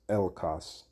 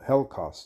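First: The word starts directly with a vowel sound. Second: The word starts with an audible h sound. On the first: The speaker calls it wrong. "it's Elkos. Well, no" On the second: The speaker calls it right. "That's how you pronounce it"

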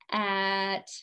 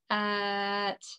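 First: It is said in a flat robot voice. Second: It is said in a flat robot voice.

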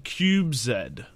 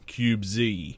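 First: The letter is said the non-American way, 'zed'. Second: The letter is said the American way, 'zee'.

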